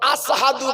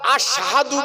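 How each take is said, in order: First: The word is said with a plain 's' sound. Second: The word is said with an 'sh' sound. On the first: The speaker calls it wrong. "আসহাদু বলতো বাবা" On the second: The speaker calls it right. "Belal আশহাদু বলতে পারতো না"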